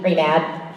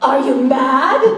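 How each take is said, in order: First: It is said in a toned-down, restrained way. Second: It is said in an extreme, over-the-top way.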